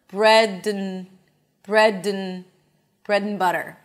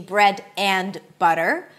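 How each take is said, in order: First: The words run together, with 'and' reduced to 'n'. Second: Each word is said separately, with 'and' in full. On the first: The speaker calls it right. "I drop the D, I reduce the A to bread and butter" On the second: The speaker calls it wrong. "so it's not going to be bread and butter"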